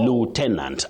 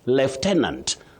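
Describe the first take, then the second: First: The first syllable sounds like 'loo'. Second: The first syllable sounds like 'lef'. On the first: "American English" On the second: "That is in British English"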